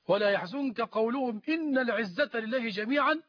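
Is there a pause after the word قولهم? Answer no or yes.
no. The words run on without a pause. The Prophet is grieved by their saying that might belongs to God. The speaker calls it wrong. "لو وصلنا لتغير المعنى وتغير الكلام"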